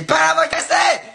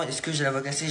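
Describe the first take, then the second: First: Much higher, louder and slow, "voix" yelled; frustrated shout. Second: Softer, testing question about "la voix cassée"; quiet voice check. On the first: Youtuber finding his voice is not broken, exasperated shout. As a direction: yell it out in disbelief. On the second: Youtuber testing his voice after the trick, soft questioning. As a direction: ask it softly, listening to your own voice. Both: Real, not acted.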